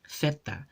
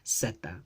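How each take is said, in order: First: The word begins with a th sound. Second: The word begins with a hissing s sound. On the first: "in Spanish, this is pronounced as theta, with the interdental fricative th" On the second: "in Chabacano, it's a s"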